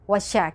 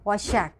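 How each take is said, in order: No difference in how they are said.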